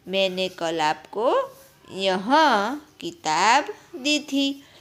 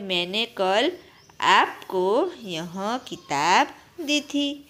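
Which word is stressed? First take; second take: यह; आपको. First: The stress is on यह. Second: The stress is on आपको.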